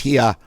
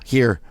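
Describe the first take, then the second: First: It is said in a Boston accent. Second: It is said in a plain, non-Boston accent.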